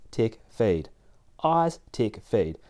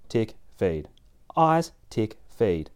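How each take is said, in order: Both takes have the same delivery.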